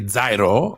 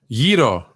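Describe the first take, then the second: First: The word begins with a z-like sound. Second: The word begins with a hard g sound. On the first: The speaker calls it wrong. "you people who say Zairo don't know the Greek" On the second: The speaker calls it right. "It is pronounced Giro"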